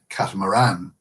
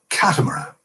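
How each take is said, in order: First: The stress is on the last syllable. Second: The stress is on the first syllable. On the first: "with emphasis on the final syllable" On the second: "with emphasis on the first syllable"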